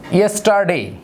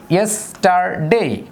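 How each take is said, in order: First: Said in the usual way. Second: yesterday slowed, each syllable separate. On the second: Shown as a demonstration. Teacher slowly splitting yesterday for students. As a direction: break yesterday into its beats. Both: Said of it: "যেমন".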